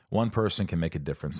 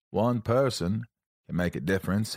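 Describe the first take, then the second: First: Said in the usual way. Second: Forrest Gump. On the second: Acted. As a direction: read the quote with a hint of impression. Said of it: "I sound like Forrest Gump".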